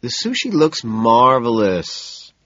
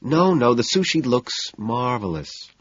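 First: Slow, soothing reassurance; calm her down gently. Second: Reassuring. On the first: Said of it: "I tell her soothingly". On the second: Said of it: "I tell her". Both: A narrator's reading.

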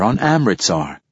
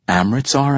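First: Said in the usual way. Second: "Amritsar?" rising high and puzzled; puzzled echo. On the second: A narrator's reading. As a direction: echo "Amritsar?" as an unfamiliar word. Rawl echoes the strange name.

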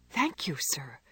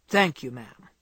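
First: Softer, breathless whispered thank you. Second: Put-on lower, gruff old man's thanks; lightly voiced gruff old man, surprising her; gruff old gentleman. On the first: Jo thanks the old gentleman in a hushed whisper. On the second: Old Mister Lawrence thanks Jo from behind, gruff. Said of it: "said a gruff voice behind her". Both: A narrator's reading.

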